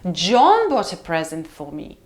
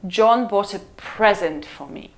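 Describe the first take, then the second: First: The last strong stress lands on John. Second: The last strong stress lands on present. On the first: "We have a very long tail in a sentence. We say, John, and then bought a present for me" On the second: "if the last word we stress is the word present"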